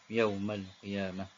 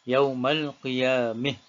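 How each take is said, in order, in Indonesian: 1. Vokal akhirnya adalah bunyi a yang terbuka. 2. Vokal akhirnya condong ke bunyi i.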